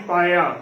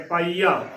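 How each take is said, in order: First: ਪਾਇਆ as paa-ya, without long ee; wrong pronunciation. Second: ਪਾਈਆ with a long ee; correct pronunciation. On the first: Teacher warning against a misreading, ਪਾਇਆ as paa-ya. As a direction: glide quickly through the middle of ਪਾਇਆ. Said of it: "ਨਾ ਕਿ". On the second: Teacher confirming the reading, ਪਾਈਆ with long ee. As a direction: say ਪਾਈਆ as paa-ee-aa. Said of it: "ਇਸ ਦਾ ਉਚਾਰਨ ਪਾਈਆ ਕਰਨਾ ਹੈ". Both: Shown as a demonstration.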